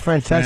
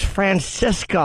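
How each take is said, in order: First: The name ends with a 'sa' sound. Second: The name ends with a 'ska' sound. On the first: The speaker calls it right. "He meant to say Mike Francesa" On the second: The speaker calls it wrong. ""Oh, I thought it was Francisca who left.""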